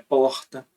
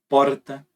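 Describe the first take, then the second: First: The R is a breathy fricative sound. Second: The R is a rolled, multiple-tap trill. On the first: "Você tem o é, que é o que eu uso" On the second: "Você tem o tape múltiplo"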